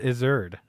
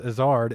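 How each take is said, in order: First: The name rhymes with wizard. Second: The name does not rhyme with wizard. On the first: The speaker calls it wrong. "I was saying it wrong" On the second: The speaker calls it right. "his name was Azard"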